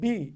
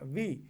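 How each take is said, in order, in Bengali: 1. ধ্বনিটি তৈরিতে দুই ঠোঁট একসাথে বন্ধ হয়। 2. উপরের দাঁত নিচের ঠোঁটকে স্পর্শ করে। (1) "এটা কি সঠিক উচ্চারণ হচ্ছে? ... হচ্ছে না" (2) "উপরের দাঁত নিচের ঠোঁটে লাগান"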